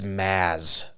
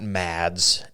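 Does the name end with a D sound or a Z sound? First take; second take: Z sound; D sound. First: The name ends with a Z sound. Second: The name ends with a D sound. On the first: The speaker calls it right. "It's Maz. No D" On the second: The speaker calls it wrong. "I've been saying his name wrong. It's not Mads"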